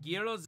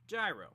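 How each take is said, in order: First: The name is said with an Italian pronunciation. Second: The name is said with an American pronunciation. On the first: "That's how you pronounce it in Italian" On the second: "over here in America we pronounce it gyro"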